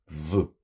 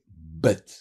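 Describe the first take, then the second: First: It begins with a soft v sound. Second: It begins with a hard b sound. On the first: The letter has no dagesh. "Quand il perd son dagesh, il devient faible" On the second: The letter carries a dagesh. "quand il a un dagesh, il devient dur"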